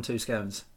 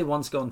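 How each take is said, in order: First: "scones" rhyming with "stones"; long-o scones. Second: "scone" rhyming with "gone"; short-o scone. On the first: Host gives own plural, "scones" with a long o. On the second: Host gives own singular, "scone" with a short o. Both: Shown as a demonstration. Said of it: "I say one scone, two scones".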